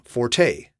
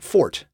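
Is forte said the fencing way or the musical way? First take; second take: musical; fencing. First: It is said in the musical pronunciation. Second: It is said in the fencing pronunciation. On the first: It is the musical term for playing loudly. The speaker calls it wrong. "most of us mispronounce this word by saying forte" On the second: It names the strong half of a blade. The speaker calls it right. "The strong half of the blade is called the forte"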